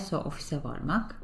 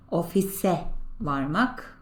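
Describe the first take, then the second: First: Said in the usual way. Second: Slow model pronunciation. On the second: Shown as a demonstration. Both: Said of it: "Remember that".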